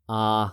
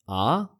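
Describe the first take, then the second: First: The pitch stays level throughout. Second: The pitch rises toward the end. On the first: It sounds mechanical, like a robot. "if it's flat? ... sounds like a robot" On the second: It sounds like a question. "That's a question"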